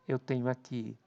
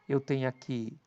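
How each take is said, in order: The two takes are said the same way.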